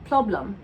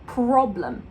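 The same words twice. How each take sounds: First: The sound after p is rounded and L-like. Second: The sound after p is a clear R. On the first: The speaker calls it wrong. "it's becoming too round and it's becoming too L-like" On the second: The speaker calls it right. "you've got to have that clear R"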